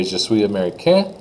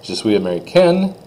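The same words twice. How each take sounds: First: Je suis américain, rising, no N; silent N. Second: Je suis américaine with a clear N; N sounded. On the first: Teacher tests students' French ear as a boy, N silent. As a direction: leave américain open at the end. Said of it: "I'm a boy". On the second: Teacher tests students' French ear as a girl, N pronounced. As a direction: close américaine on its N. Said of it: "I'm a girl". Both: Shown as a demonstration.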